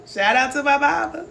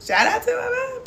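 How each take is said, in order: First: Said in the usual way. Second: Voice cracking up. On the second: Real, not acted. Shout-out to her mama, voice breaking high with emotion. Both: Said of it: "I ain't gonna get emotional".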